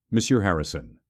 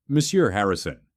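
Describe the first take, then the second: First: Understated coldness; restrained, cool formal greeting; icy. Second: A touch of warmth; mildly warm formal greeting; considerably warmer. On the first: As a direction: address him with a touch of frost. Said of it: "tone cold enough to freeze water". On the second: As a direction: address him more kindly, with respect. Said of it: "tone now considerably warmer". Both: A narrator's reading.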